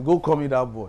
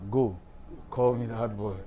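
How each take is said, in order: First: It runs on without a pause after "go". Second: There is a pause after "go".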